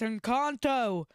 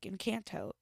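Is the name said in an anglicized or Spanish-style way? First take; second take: Spanish-style; anglicized. First: The name is said with Spanish-style sounds. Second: The name is said with English-style sounds. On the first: The speaker calls it right. "it's Encanto" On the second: The speaker calls it wrong. "I pronounced it like Encanto because apparently I whitewash names"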